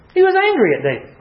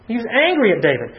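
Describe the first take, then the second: First: First take pitched far higher and pressed, voice stretched up on "He was angry at David"; emphatic high retelling. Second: Said in the usual way. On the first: Shown as a demonstration. Preacher telling the class with a pitched-up, emphatic voice.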